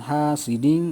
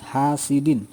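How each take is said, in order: First: "hasidin" ending in a humming ng sound; wrong nasal reading. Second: "hasidin" with a crisp, clean final n and no hum; correct clear reading. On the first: Teacher showing pupils the mistake, a nasal ng ending. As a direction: let the n of "hasidin" slide into a nasal ng. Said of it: "itu salah ya". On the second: Teacher giving the correct version, a clean n. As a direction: close "hasidin" on a sharp, clear n. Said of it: "Jadi harus jelas". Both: Shown as a demonstration.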